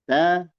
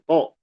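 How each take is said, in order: First: The t is pronounced thin and light. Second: The t is pronounced thick and heavy. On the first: The speaker calls it right. "Ta dibaca tipis" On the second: The speaker calls it wrong. "Jangan todlil"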